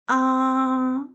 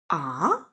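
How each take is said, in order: First: The pitch stays level and flat. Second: The pitch rises from low to high. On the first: The mouth is simply opened wide. "it's flat, like an open mouth sound" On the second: The speaker is surprised. "the second tone, rising up like, what, what, surprising sound"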